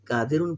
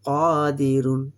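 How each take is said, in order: First: The first vowel is short, not stretched. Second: The first vowel is stretched out long. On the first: The speaker calls it wrong. "कादिरुन पढ़ेगा तो गलत है" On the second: The speaker calls it right. "कायदे के मुताबिक मद बन गया"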